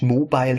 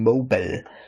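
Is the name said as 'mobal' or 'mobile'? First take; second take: mobile; mobal. First: It is said like the word 'mobile'. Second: It is said as 'mobal', ending in 'bal'. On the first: The speaker calls it wrong. "nicht Mobile" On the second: The speaker calls it right. "ich habe das schon richtig ausgesprochen"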